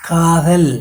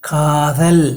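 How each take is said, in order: The two takes are said the same way.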